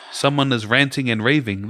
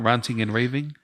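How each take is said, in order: First: "ranting" with the 'a' of ant; short-A ranting. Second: "ranting" with a broad 'ah' vowel; long-A ranting. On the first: Arguing for the usual saying, "ranting" with the 'a' of ant. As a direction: say "ranting" as RAN-ting, first vowel as in ant. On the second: Showing the rejected pronunciation, "ranting" as RAHN-ting. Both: Shown as a demonstration. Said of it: "They're not ranting and raving".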